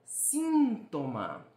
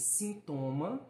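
First: Síntoma with SIN drawn out, high and loud; slow SIN-to-ma, punching the first syllable; Spanish stress on SIN. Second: Sintoma with the middle TO stressed; sin-TO-ma, weight on the second syllable. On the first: Teacher showing Spanish stress, síntoma stretched on SIN. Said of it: "No espanhol". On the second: Teacher showing Portuguese stress, sintoma stressed on TO. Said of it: "No português". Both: Shown as a demonstration.

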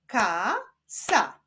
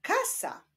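First: KA, pause, SA; syllable by syllable. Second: Said in the usual way. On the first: Shown as a demonstration. Teacher joining syllables into a word, Ka and sa separated. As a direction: sound out "Ka, sa" as two separate syllables. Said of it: "łączmy sylaby". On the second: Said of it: "Powstaną z nich wyrazy".

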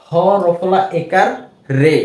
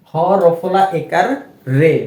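The two takes are said the same way.

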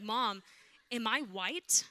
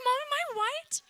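First: Said in the usual way. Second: Put-on much higher, squeaky little-kid voice; high squeaky kid asking her mother; childish whine. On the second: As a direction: play a clueless small child asking mom. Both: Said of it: "I was like".

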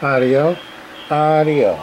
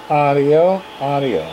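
Both takes have the same delivery.

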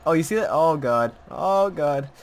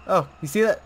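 First: Startled and loud; urgent, louder call; alarmed. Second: Alarmed. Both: Real, not acted. Repeated in alarm.

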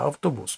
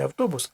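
First: «автобус» з наголосом на останнє «у»; іспанський наголос. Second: «автобус» з наголосом на «о», не на «у»; наголос на передостанній склад. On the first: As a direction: say «автобус» the Spanish way, au-to-BUS. («автобус» по-іспанськи: автоБУС) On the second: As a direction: stress the middle of «автобус»: av-TO-bus. («автобус» як авТОбус) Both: Shown as a demonstration. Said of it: "А по-іспанськи звучить не".

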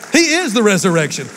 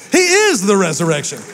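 Both takes have the same delivery.

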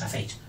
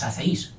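First: Said in the usual way. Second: HACÉIS misspoken as ha-ce-ÍS; wrong broken diphthong. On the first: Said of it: "decimos hacéis". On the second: Shown as a demonstration. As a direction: separate E and I in hacéis, stress on Í. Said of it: "no decimos hacéis". (hacéis mal dicho, ha-ce-ÍS)

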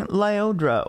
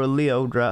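First: "Lyodra" with LIE as first syllable; first name pronunciation. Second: "Leodra" with LEE as first syllable; alternative pronunciation. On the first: Reviewer recapping the featured singer, first pronunciation "[name]". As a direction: pronounce "Lyodra" lie-OH-dra. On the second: Reviewer allowing for another pronunciation of the singer's name, "[name]". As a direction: pronounce "Leodra" lee-OH-dra. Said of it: "however people pronounce it". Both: Shown as a demonstration.

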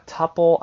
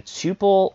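First: "tuple" said as TUP-ul, higher and louder; short-u pronunciation. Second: "tuple" said as TOO-pul; long-u pronunciation. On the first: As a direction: say "tuple" to rhyme with "supple". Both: Shown as a demonstration. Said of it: "not actually sure what the right pronunciation".

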